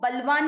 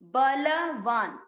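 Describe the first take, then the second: First: The ब and ल are run together. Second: The ब and ल are both fully pronounced. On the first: The speaker calls it wrong. "इसको बलवान नहीं पढ़ना है" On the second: The speaker calls it right. "ब और ल दोनों अक्षर पूरे पूरे हैं तो आपको दोनों को अलग अलग पढ़ के पूरा बोलना है"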